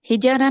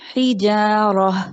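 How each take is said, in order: First: The vowel after the j is short or dropped. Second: The vowel after the j is long. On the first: The speaker calls it wrong. "हिजरा नहीं" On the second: The speaker calls it right. "जीम के बाद अलिफ"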